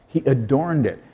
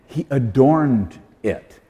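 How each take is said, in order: First: Said in the usual way. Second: He adorned it, slowly, weight on adorned; slow emphatic stress. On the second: Shown as a demonstration. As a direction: lean on adorned, slow and deliberate. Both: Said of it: "That's the verb form".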